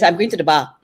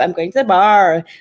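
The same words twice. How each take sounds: First: It has a Malaysian accent, shortened. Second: It has an American accent with the r.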